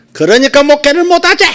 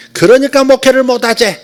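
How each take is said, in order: First: High, loud, sharp Gyeongsang auntie voice; sharp Gyeongsang dialect. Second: High, loud Gyeongsang rebuke; sharp Gyeongsang dialect. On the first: Prophetess rebuking the pastor, sharp Gyeongsang dialect, much higher and louder. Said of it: "여자 경상도 사투리 쓰시는 아줌마의 목소리로". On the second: Retelling the prophetess's rebuke, sharp Gyeongsang dialect, high and loud. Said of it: "날카로운 경상도 사투리". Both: Retold or imitated.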